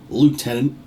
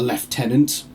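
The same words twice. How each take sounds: First: It is said with an American pronunciation. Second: It is said with a British pronunciation. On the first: "as you Americans would say" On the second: "what Vista three would call a lieutenant"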